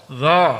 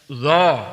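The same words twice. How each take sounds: First: The consonant is pronounced thick and heavy. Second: The consonant is pronounced thick and heavy.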